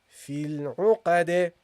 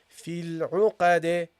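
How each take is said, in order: The two takes are said the same way.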